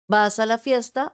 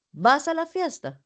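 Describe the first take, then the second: First: Flat question with stress on vas; "¿vas a la fiesta?" asked plainly, weight on vas. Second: "¿vas a la fiesta?" pitched higher, falling on a; surprised question. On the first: Teacher asks her class plainly, vas a la fiesta. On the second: Teacher shows her class the surprised way, higher. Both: Shown as a demonstration. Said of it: "Suena diferente".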